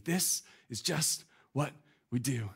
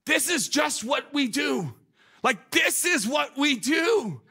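First: Softer, slow, hushed repeat; soft reflective echo. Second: High, loud, slow, drawn-out insistence; emphatic insistence. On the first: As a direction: let the words sink in quietly. Preacher repeats quote softly. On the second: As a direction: stress it as obvious routine. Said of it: "And she goes". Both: Retold or imitated.

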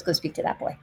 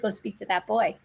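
First: Softer, breathy whisper; hushed voice of God; whispered command. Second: Quiet divine voice. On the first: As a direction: whisper it like a divine nudge. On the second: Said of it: "he said". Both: Retold or imitated.

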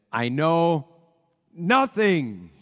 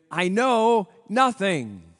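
First: A loud, lightly put-on German accent; Sergeant Schultz impression. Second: Slow, loud mock German guard accent, lightly done; Sergeant Schultz catchphrase. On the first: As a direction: bellow it as the bumbling guard Schultz, a touch of accent. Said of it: "I wish that I could do the Sergeant Schultz accent". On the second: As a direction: stretch it out like Schultz, playful. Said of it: "would say".

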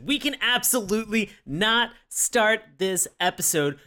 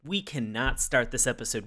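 First: Absolutely not punched higher; stress on absolutely not. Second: Said in the usual way. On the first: Shown as a demonstration. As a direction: hit the words absolutely not, rising.

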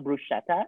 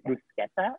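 First: Bruschetta with a soft sh in the middle; anglicized bruschetta, sh instead of sk; wrong bruschetta. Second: Bruschetta with a hard sk in the middle; Italian-style bruschetta, sk instead of sh. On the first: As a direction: say bruschetta as broo-SHET-ta. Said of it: "it's not bruschetta". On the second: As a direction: say bruschetta as broo-SKET-ta. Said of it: "it's bruschetta". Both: Shown as a demonstration.

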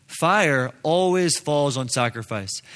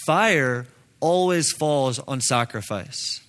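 Both takes have the same delivery.

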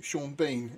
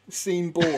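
First: Said in the usual way. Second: "Sean Bourne" said as seen-born; deliberate mispronunciation. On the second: Shown as a demonstration. Joking about the spelling, "Sean Bourne" as seen-born. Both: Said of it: "I always call him Sean Bourne".

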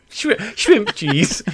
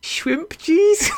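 First: Shri-, shrimp cheese said slowly and higher, stumbling on shrimp; retry shrimp cheese slowly, still giggling; slow giggling second attempt; laughing retry. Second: Shrimp cheese squeaked out much higher through laughter; high laughing mispronunciation; laughing attempt. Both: Shown as a demonstration. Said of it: "This is sounding like the Swedish chef".

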